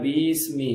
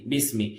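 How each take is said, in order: First: The first vowel is drawn out long. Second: The first vowel is short and simple. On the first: The speaker calls it wrong. "கவனமே இல்லாம பீஸ்மி பீஸ்மின்னு இழுத்துடக்கூடாது" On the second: The speaker calls it right. "பிஸ்மி என்பது ரொம்ப சிம்பிள்"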